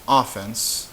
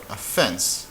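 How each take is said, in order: First: "offense" stressed OFF-ense; "offense" as in football; sports offense. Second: "offense" stressed of-FENSE; "offense" as taking insult. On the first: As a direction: stress the first syllable of "offense". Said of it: "like offense and defense". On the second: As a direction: stress the second syllable of "offense". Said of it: "no offense". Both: Shown as a demonstration.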